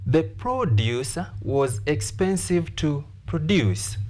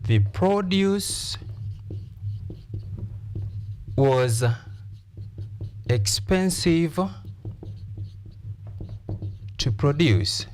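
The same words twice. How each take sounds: First: Produce as noun stressed PROduce, as verb stressed proDUCE; noun-verb stress contrast. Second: The produce said slow with PROduce stressed on its first syllable, to produce with proDUCE on its second. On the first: Teacher repeating the sentence to the class with noun and verb stress. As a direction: contrast the first produce PROduce and the last produce proDUCE. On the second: Teacher to class demonstrating noun and verb stress: PROduce then proDUCE. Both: Shown as a demonstration. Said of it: "we stress which syllable? The first syllable".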